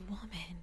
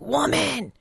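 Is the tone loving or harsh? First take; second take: loving; harsh. First: It is said lovingly and intensely. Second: It is said harshly, without warmth.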